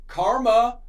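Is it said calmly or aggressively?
calmly. It is said calmly and discreetly.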